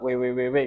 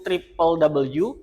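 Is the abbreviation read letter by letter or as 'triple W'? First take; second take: letter by letter; triple W. First: The abbreviation is read letter by letter. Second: The abbreviation is read as triple W. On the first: The speaker calls it wrong. "Agak aneh kalau dibaca www gitu" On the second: The speaker calls it right. "yaitu triple W"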